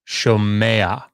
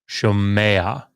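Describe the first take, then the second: Both takes have the same delivery.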